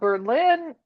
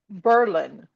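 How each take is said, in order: First: It sounds like the German capital's name. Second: It sounds different from the German capital's name. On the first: This is the name as the German city is called. The speaker calls it wrong. "it's not Berlin" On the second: This is the name as the town changed it against Germany. The speaker calls it right. "it is Berlin"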